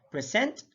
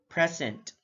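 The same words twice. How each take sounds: First: "present" with rising tune on the second syllable; first of a pair, "present" left rising; contrasted stress, rising. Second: "present" with a falling end; second of a pair, "present" closed with a fall; contrasted stress, falling. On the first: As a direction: lift the end of "present". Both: Shown as a demonstration. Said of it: "stress is the verbal emphasis used".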